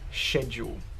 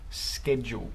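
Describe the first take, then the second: First: The word begins with an 'sh' sound. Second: The word begins with an 'sk' sound.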